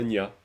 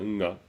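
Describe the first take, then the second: First: The syllable starts with a 'ny' sound. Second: The syllable starts with an 'ng' sound. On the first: The speaker calls it wrong. "c'est pas un nya" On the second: The speaker calls it right. "c'est un nga"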